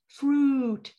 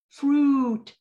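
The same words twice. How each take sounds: The two takes are said the same way.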